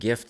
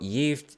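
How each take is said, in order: First: The word is said like English 'gift'. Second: The word is said the Swedish way. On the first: The speaker calls it wrong. "it's not pronounced gift like it looks" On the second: The speaker calls it right. "it's not pronounced gift like it looks"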